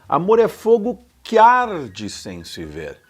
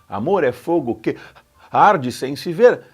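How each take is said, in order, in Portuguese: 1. As palavras que e arde são ditas juntas. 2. As palavras que e arde ficam separadas. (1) "o que se junta com o a do arde" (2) "Não faria sentido para o som do poema"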